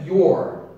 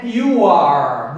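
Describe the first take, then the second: First: "your" as one short syllable, yor; contracted you're, sounding like your; "your", the correct short form; right, said your. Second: "you are" said as two full words; the wrong, unshortened you are; "you are" spelled out word by word; wrong, split you are. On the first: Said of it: "é your". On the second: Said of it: "Não é". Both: Shown as a demonstration.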